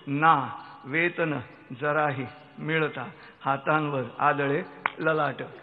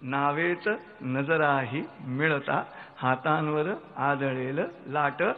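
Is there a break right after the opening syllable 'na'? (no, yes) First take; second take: yes; no. First: There is a break after the opening syllable. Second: The opening syllables run together as one word. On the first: With no salary at all, one strikes the forehead in despair. "दुसरी ओळ" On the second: Eyes meet in a boat as a wave hits the hands. "पहिली ओळ मराठीतली"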